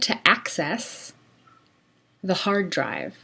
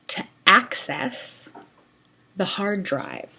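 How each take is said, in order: First: "To" runs smoothly into "access" without a break. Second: A glottal catch separates "to" from "access". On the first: "Now I'm linking between to and access" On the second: "using a glottal stop"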